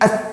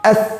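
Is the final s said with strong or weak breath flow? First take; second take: weak; weak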